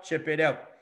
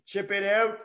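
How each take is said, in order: First: Said in the usual way. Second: "Chip it out" said higher, pushed harder on "out"; emphatic repeat. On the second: Shown as a demonstration. Coach to players on video, stressing "Chip it out" higher. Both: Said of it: "It's don't throw it".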